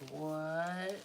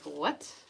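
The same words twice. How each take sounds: First: It is said very slowly, drawn out. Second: It is said at normal speed.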